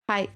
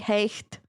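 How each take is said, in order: First: It is said with the present-day pronunciation. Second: It is said with the old, pre-shift pronunciation. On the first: This is how the word is said today. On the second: This is how the word sounded centuries ago.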